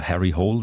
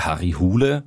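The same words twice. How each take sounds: First: Harry Hole pronounced as in English; English pronunciation. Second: Harry Hole said the non-English way, like "Harri Hule"; nicht-englische Aussprache. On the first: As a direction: say "Hole" as one English syllable, like "hole". (Harry Hole englisch ausgesprochen) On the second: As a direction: say "Hole" in two syllables, "HOO-leh". (Harry Hole nicht englisch ausgesprochen, „Harri Hule“) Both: Shown as a demonstration. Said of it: "wenn man das auf Englisch ausspricht".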